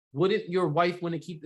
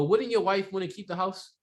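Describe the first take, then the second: First: "Wouldn't" leading, said slowly; inverted tie-down, slower. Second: "Wouldn't" thrown to the front of the question; inverted tie-down. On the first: Trainer repeating the inverted version for trainees. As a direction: lean on the opening "Wouldn't". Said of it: "it's the same thing". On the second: Trainer showing trainees the inverted agreement magnet. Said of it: "another way to invert that". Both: Shown as a demonstration.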